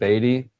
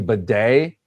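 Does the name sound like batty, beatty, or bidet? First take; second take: beatty; bidet. First: The name sounds like 'beatty', with a long e. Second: The name sounds like 'bidet', stressed at the end. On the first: "from Batty and Beatty" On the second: "change the pronunciation ... to Bidet"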